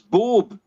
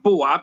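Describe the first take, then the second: First: The vowel is one plain short sound. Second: The vowel is split into two sounds. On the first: The speaker calls it right. "it's Bob" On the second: The speaker calls it wrong. "it's not Boab"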